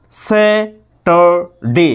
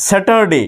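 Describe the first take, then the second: First: Saturday very slowly as স্যা, টার, ডে with pauses; three-part split. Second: Said in the usual way. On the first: Shown as a demonstration. Teacher shows three syllables, very slow broken Saturday. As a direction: stretch and separate each syllable of Saturday. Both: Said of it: "তিনটে পার্টে যাবে".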